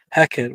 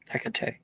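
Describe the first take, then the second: First: The name sounds like 'Hackett', two syllables. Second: The name sounds like 'Hecate', three syllables. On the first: The speaker calls it wrong. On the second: The speaker calls it right.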